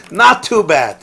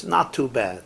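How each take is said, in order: First: "Not too bad." drawn out slowly with a laugh; slow amused echo of "Not too bad."; slow, louder knowing repeat. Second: Shrugging Jewish reply. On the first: Shown as a demonstration. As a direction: savour the understatement, laughing. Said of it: "And it means he probably made ten million". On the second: Retold or imitated. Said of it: "The best you'll hear is".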